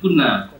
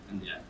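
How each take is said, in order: First: It is said kunna, with no y sound. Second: It is said kanya, with a y sound. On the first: This is the Bangladeshi pronunciation. "in Bangladesh kunna" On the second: This is the Thai pronunciation. "but Thai we say kanya"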